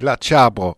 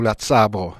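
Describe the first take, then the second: First: The word starts with a ch sound. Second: The word starts with a ts sound. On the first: "nous autres on dit « la tchabro »" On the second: "ou « la tsabro »"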